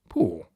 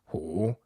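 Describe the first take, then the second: First: The pitch falls steadily downward. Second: The pitch dips down and rises again. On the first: It means an iron burnt a hole in trousers. "the same syllable downward" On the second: It means mighty. "a sort of scooping, high and low-like sound"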